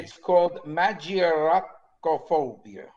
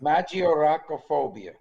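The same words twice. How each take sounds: First: Slow Italian-flavoured "magioracophobia"; Italian accent. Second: Italian accent. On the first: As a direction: roll "magioracophobia" like an Italian word. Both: Shown as a demonstration. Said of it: "Notice I put the Italian accent in there".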